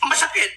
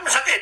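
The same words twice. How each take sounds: First: High pained protest. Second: Raised pitch, echoing the hurt; high mock pain. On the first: Retold or imitated. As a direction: pitch jumps up, mock pain. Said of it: "sabi ko". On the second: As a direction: repeat the complaint higher.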